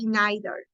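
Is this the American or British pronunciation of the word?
British. It is said with a British pronunciation. "In Britain, they say neither"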